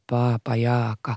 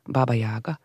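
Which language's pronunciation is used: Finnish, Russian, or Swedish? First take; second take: Finnish; Swedish. First: The name is pronounced the Finnish way. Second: The name is pronounced the Swedish way. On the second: "lekte med ordet som ett ord på svenska"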